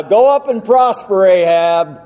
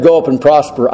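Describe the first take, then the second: First: Mock cheering-on, pitched up then dropping on the name; sarcastic encouragement. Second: Said in the usual way. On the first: Shown as a demonstration. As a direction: send him off with obviously insincere agreement. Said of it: "the tone that Micaiah used". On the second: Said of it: "that Micaiah used when he said".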